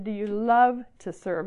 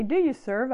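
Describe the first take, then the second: First: Slow, leaning hard on "love"; stress on love. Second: Said in the usual way. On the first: Shown as a demonstration. Speaker correcting her own question to the girls, stressing "love". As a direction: stretch and press the word "love". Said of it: "I said". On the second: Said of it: "I didn't say".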